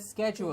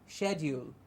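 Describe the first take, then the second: First: It begins with an sk sound. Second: It begins with an sh sound. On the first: "the sh in the beginning becoming a schedule" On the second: "the British pronunciation"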